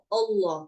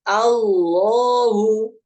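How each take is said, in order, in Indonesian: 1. Vokal pertama tebal, seperti 'o'. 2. Vokal pertama adalah 'a' yang jelas dan terbuka. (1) "Jangan sampai kita baca O, ... Jadi seperti huruf O" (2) "kita sempurnakan dulu alifnya atau hamzanya"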